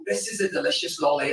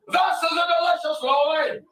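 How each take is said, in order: First: Put-on sweet polite child. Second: Put-on a tough little Glasgow boy, like a loan shark; Glasgow wee lad. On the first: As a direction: say it sweetly like a well-behaved child. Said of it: "except with a wee lad from Glasgow". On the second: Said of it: "a wee lad from Glasgow".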